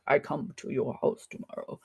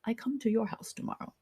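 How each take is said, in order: First: Lower, lightly voiced caveman; caveman talk. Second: Said in the usual way. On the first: Shown as a demonstration. Teacher showing how German phrasing sounds in English, mild caveman talk. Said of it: "It's like caveman talk".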